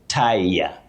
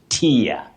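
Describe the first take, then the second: First: The word rhymes with fire. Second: The word rhymes with fear. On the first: It means a person who ties something. "when you talk about a person who ties something, you say tire" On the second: It means a layer. "When you talk about a layer, a tier, layer, you say tier"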